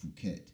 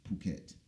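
First: Phuket pronounced "foo-ket"; Phuket wrongly with F. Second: Phuket pronounced "poo-ket"; Phuket with silent H. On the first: So you don't look crazy, Phuket wrongly with F. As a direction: give Phuket the mistaken F sound. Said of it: "It's not". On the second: So you don't look crazy, Phuket rightly with P. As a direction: say Phuket with a P sound. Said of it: "So the H is silent". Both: Shown as a demonstration.

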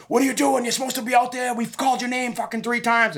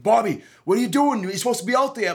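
First: Flipping out. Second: Higher, startled staffer calling Bobby; a worker surprised he's still backstage. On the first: Commission official yelling at the late fighter, high mock freakout. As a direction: imitate an official losing it at the fighter. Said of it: "was, like, flipping out". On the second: Staffer finding the fighter still backstage, higher and startled. Staffer comes to fetch him. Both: Retold or imitated.

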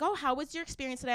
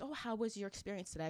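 First: Higher, quick customer-service question; imitated lady clerk. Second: Imitated greeter. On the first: Cashier lady asks shopper about her visit, imitated perky question. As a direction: chirp it fast and high, as the clerk. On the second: Greeter asks departing shopper about her visit, imitated soft question. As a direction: ask it softly, as the greeter.

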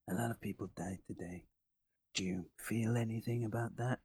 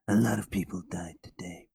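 First: Quiet, quick antihero voice; Snake Plissken impression. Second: Whispered tough-guy rasp; Snake Plissken whisper. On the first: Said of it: "do your best Snake Plissken impression". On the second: Retold or imitated. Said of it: "That's not bad, to be honest".

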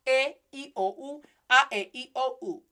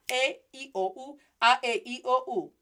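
The two takes are said the same way.

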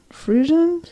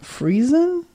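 First: Friesen said FREE-zhun, questioning and higher; second pronunciation guess. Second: Friesen said FREE-zen, with a z; unsure pronunciation. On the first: Co-host guessing at an unknown term, Friesen tried as FREE-zhun. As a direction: say Friesen with a soft zh, softer. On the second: Co-host reading an unknown term, Friesen tried as FREE-zen. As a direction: say Friesen with a buzzing z sound. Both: Real, not acted. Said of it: "I don't know what that is".

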